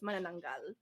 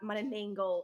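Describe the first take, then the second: First: The vowels are all an open 'ah' sound. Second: The vowels are a hard English-style 'a'. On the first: The speaker calls it right. "It's Manananggal" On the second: The speaker calls it wrong. "not Manananggal"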